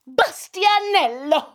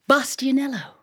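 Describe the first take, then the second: First: The name is said with great excitement. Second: The name is said calmly and plainly.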